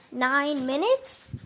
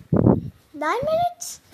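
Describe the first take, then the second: First: Said in the usual way. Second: "Nine minutes?" much higher, slow and rising; mock disbelief. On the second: Shown as a demonstration. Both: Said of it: "repeats it high".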